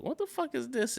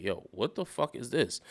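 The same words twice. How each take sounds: First: "What the fuck is this?" quick, high and hushed; a small, high, puzzled "What the fuck is this?"; first-reaction emphasis. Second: "Yo, what the fuck is this?" soft, opening on a weighted "Yo"; hushed awe on "Yo, what the fuck is this?"; second-reaction emphasis. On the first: Host recalling first hearing Lollipop, "What the fuck is this?" said high and soft in bafflement. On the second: Host recalling [name] winning them over, "Yo, what the fuck is this?" said softly impressed. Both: Retold or imitated. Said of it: "there was two different, uh, emphases".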